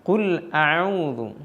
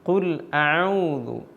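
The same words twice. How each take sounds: No difference in how they are said.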